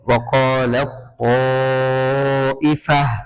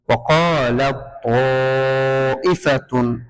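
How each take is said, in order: First: The last word ends with a plain vowel. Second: The last word ends with a full -tun ending. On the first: The speaker calls it right. "এভাবে পড়তে হবে" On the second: The speaker calls it wrong. "হবে না"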